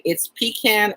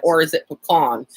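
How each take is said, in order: First: "pecan" as PEE-can, first syllable stressed; pronounced PEE-can. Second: "pecan" as puh-KAHN, second syllable stressed; pronounced puh-KAHN. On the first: Streamer voicing one side of debate, pecan as PEE-can. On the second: Streamer voicing other side of debate, pecan as puh-KAHN. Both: Shown as a demonstration. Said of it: "get into this big debate".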